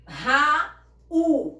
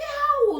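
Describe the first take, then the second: First: "Raul" em duas partes fortes, Ra e ul, com pausa; sílabas separadas. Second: Said in the usual way. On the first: Shown as a demonstration. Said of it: "eu separo Ra". ("Raul" silabado e mais alto) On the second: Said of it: "Por que Raul não recebe acento?".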